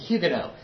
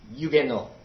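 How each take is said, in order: First: The opening H is sounded, the final T dropped. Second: Neither the opening H nor final T is sounded. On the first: This is a compromise closer to French. "that is a better pronunciation ... I'm going to pronounce the H, but I'll drop that T" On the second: This is the French pronunciation. "In French, it's Huguenot. And the H is silent and the T is silent"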